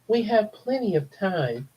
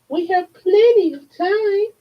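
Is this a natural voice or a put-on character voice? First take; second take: natural; put-on. First: It is read in a natural speaking voice. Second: It is read in a put-on character voice.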